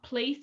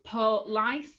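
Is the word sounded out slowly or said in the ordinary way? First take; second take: ordinary; sounded out. First: The word is said quickly in the ordinary way. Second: The word is sounded out carefully, syllable by syllable. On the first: This is the everyday pronunciation. "not police" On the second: This is how the word is pictured for spelling. "I have to sound out so it's police"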